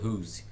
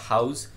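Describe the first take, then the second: First: It has a stereotyped Canadian vowel sound. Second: It has the usual American vowel sound. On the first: "eles falam whose" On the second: "em vez de falar house"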